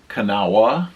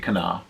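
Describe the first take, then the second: First: The final 'wha' syllable is fully pronounced. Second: The final 'wha' syllable is left off. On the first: This is how the spelling suggests it. The speaker calls it wrong. "it would seem like Kanawha because there's a W H A at the end" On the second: This is how people there actually say it. The speaker calls it right. "everybody seemed to just say Kana"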